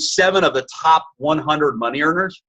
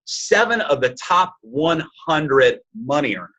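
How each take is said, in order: First: Said in the usual way. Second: "Seven of the top one hundred money earners", slowly, word by word; emphatic repeat. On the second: Real, not acted.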